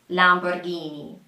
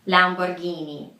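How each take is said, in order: No difference in how they are said.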